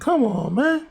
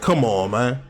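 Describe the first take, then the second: First: It is said softly and weakly. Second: It is said hard and forcefully.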